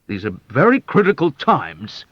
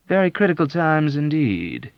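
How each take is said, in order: First: Louder, higher petulant colonel; petulant assertion. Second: Placid agreement. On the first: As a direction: whine it like a fretful commander. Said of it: "asserted petulantly". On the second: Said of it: "agreed with a placid nod". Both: Acted.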